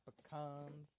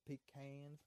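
First: "pecans" said puh-KAHNZ; "pecans" as puh-CONS, rhyming with dons; second pronunciation of pecans. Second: "pecans" said pee-KANZ; "pecans" as PEE-CANS, rhyming with fans; first pronunciation of pecans. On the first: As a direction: say "pecans" with a short first syllable and ah. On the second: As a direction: say "pecans" with a long ee and flat can. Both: Shown as a demonstration. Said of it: "Is it pecan or pecan?".

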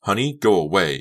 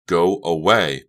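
First: Tense, louder order; tight, controlled anger; through clenched teeth. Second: Loud, firm order; forceful, angry dismissal; louder repeat. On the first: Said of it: "she said through clenched teeth". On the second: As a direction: raise your voice to get through. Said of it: "Becca repeated more loudly". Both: A narrator's reading.

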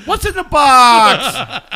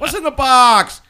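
First: Slow, loud dramatic quote; movie quote. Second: Loud dramatic repeat; movie quote. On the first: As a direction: draw out the famous line. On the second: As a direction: shout the famous line. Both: Retold or imitated. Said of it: "I'm reminded of the movie Seven".

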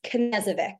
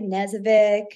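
First: "Knezovic" with an audible K before the N; sounded K. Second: "Knezovic" starting straight on the N; silent K. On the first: Correcting how people say her surname, K sounded in "Knezovic". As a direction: say "Knezovic" as kuh-NEZ-uh-vik. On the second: Showing a common mistake with her surname, silent K in "Knezovic". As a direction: say "Knezovic" with the K left off. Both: Shown as a demonstration. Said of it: "you don't pronounce the K".

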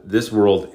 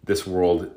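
First: World pushed a touch louder, falling; stress on world. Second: Said in the usual way. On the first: Shown as a demonstration. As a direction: lean into "world" on the repeat.

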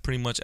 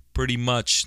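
First: Said in the usual way. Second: "Pretty much" set apart and punched louder; emphasis on "Pretty much". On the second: Shown as a demonstration. Podcaster qualifying his opinion for listeners, "Pretty much" emphasized. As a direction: lean firmly on "Pretty much" as a standalone phrase. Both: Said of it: "Let me emphasize the word pretty much".

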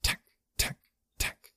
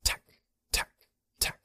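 First: Soft voiceless insect clicks; sharp clicking sound. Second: Short sharp insect clicks; clicking sounds. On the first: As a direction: click from the throat like a bug. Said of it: "only a sharp clicking sound reverberated from him". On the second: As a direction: click like a bug. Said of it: "it made several strange clicking sounds". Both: A narrator's reading.

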